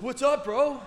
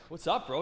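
First: Very high, loud mock comeback; worked-up, high-pitched yell; raging retort. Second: Raised pitch, friendly challenge; higher-pitched "what's up"; casual greeting. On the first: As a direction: imitate an angry driver throwing the greeting back. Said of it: "he's raging". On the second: Retold or imitated. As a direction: retell your own easy hello to an angry driver. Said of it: "I look at him. I'm like".

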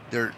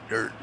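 No difference in how they are said.

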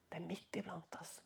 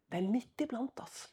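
First: "Det er midt iblant oss" whispered, much softer. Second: Said in the usual way. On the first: Shown as a demonstration. Preacher repeating his warning to the congregation as a whisper.

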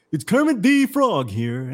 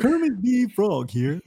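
First: Lightly voiced frog puppet; a hint of a high, slow Kermit. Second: Higher, slower frog puppet voice, laughing; hammed-up Kermit through giggles. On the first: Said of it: "Billy Ray's sorry excuse for a Kermit the Frog impression". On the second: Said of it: "The best I can do".

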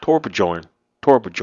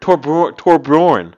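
First: "Torbjorn" read as tor-buh-JORN, with an English J; mistaken pronunciation. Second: "Torbjorn" with J as Y, TOR-byorn, loud and higher; corrected pronunciation. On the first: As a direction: sound out "Torbjorn" with a hard J. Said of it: "how do you pronounce this". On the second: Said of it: "B J O R N is Bjorn". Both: Shown as a demonstration.

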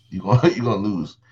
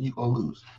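First: Laughing through the words. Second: Said in the usual way. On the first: Real, not acted. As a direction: chuckle while saying it. Repeated punchline with laugh.

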